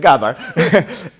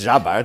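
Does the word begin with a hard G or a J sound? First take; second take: hard G; J sound. First: The word begins with a hard G sound. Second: The word begins with a soft J sound. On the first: The speaker calls it wrong. "Don't say Gabbar" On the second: The speaker calls it right. "Because it's Jabbar"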